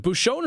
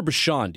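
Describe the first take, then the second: First: "Bucshon" said as boo-SHOWN; long O in the second syllable of "Bucshon"; first pronunciation option. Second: "Bucshon" said as boo-SHAHN; second pronunciation option. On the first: Host checking a congressman's name, "Bucshon" tried as boo-SHOWN. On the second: Host checking a congressman's name, "Bucshon" tried as boo-SHAHN. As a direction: open AH in the second syllable of "Bucshon". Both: Shown as a demonstration. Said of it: "Is it Bucshon or Bucshon?".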